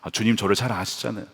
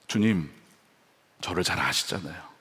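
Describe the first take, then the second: First: It sounds self-assured, expecting a reward. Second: It sounds humble and contrite, confessing sin.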